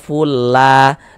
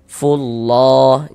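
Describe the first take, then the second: First: The L sound is thin and light. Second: The L sound is thick and heavy. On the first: The speaker calls it wrong. "Jangan dibaca fulla" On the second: The speaker calls it right. "kita baca tebal, kita baca tabkhim"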